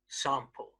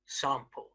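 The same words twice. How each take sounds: First: It is said in a southern English accent. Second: The same.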